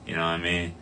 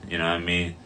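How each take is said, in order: Both takes have the same delivery.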